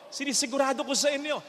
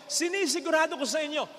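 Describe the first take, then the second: First: Said in the usual way. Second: Sinisigurado shouted out to the church; shouted assurance. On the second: Real, not acted. Priest assuring the congregation, shouting. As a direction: raise the voice and insist. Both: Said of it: "repeated line".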